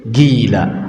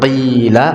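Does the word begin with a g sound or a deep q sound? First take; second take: g sound; q sound. First: It begins with a hard g sound. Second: It begins with a deep throat q sound. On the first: "maka dikatakan jadi gila" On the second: "Kalau dikatakan qila"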